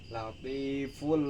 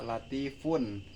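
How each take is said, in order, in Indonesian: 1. Bunyi n di akhir digabung ke l. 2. Bunyi n di akhir diucapkan dengan jelas. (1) "tetapi dimasukkan latiful lima" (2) "bukan dibaca latifun"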